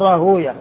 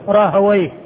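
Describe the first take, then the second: First: The middle sounds like hoo, ending in yah. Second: The middle sounds like hawa, ending in ayh. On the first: This is the form used by hadith scholars. "المحدثين ينطقون به هكذا فيقول راهوية، يعني تكون الواو ساكنة والهاء قبلها مضمومة والياء التي بعد الواو مفتوحة" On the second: This is the form used by language scholars. "وأما أهل اللغة فيقولون راهوي، يعني يكون تكون الواو مفتوحة والياء ساكنة"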